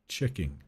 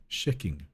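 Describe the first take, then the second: First: Said in the usual way. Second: "checking" with CH softened to SH; soft CH slip. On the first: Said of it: "Instead of saying". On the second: Shown as a demonstration. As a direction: say "checking" as "shecking". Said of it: "it could slip out to".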